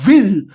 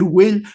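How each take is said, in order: First: It is said emphatically with a German accent. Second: It is said plainly, without a German accent. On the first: "dice will y lo dice con un énfasis como de, como de nazi" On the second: "en vez de decir will"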